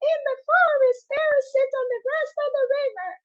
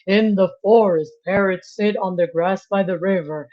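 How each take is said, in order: First: It is said in a high voice. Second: It is said in a low voice.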